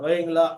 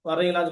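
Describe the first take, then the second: First: The r sound is dropped from the word. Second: The r sound is clearly pronounced. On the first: The speaker calls it wrong. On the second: The speaker calls it right.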